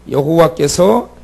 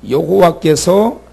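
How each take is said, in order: Both takes have the same delivery.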